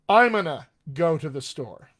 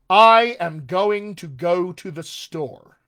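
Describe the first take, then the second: First: Words are strongly reduced and run together. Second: Every word is pronounced fully and carefully. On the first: "A little more" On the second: "Here is some formal speech"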